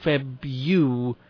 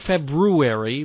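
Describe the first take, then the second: First: A 'yoo' sound follows the first syllable 'Feb'. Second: An R sound follows the first syllable 'Feb'. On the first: The speaker calls it wrong. "not Feb-U" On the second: The speaker calls it right. "I pronounce it February"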